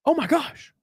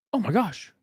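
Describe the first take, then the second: First: Higher, breathless oh my gosh; delighted exclamation; excited gasp. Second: Said in the usual way. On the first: Real, not acted. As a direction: gasp at the gift.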